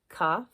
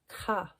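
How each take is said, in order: First: It begins with a hard k stop sound. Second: It begins with a throaty kh friction sound. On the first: The letter has a dot inside it. "hard plosive sound when it's inside the letter" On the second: The letter has no dot inside it. "which makes a sound similar to chet, like the ending of bach"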